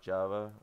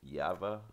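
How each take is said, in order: First: The word begins with a J sound. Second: The word begins with a Y sound. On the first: "Not Java" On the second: "I pronounced it Yava"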